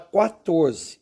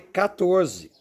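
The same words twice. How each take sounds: First: The word begins with a kw sound. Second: The word begins with a plain k sound. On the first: The speaker calls it wrong. "Algumas pessoas falam quatorze, mas não" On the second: The speaker calls it right. "só devo pronunciar a primeira, que é com C"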